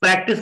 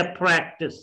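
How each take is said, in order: First: Said in the usual way. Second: प्रैक्टिस with long open "prae"; careful English प्रैक्टिस, "PRAEK-tis"; English pronunciation. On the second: Shown as a demonstration. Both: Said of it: "की बजाय प्रैक्टिस".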